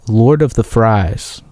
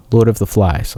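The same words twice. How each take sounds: First: Fries said slowly with a long ai, like fried potatoes; mispronounced title. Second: Flies said clearly with an l, the right word; corrected title. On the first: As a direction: Lord of the Fries, the wrong word drawn out. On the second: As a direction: Lord of the Flies, a quick self-correction. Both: Shown as a demonstration.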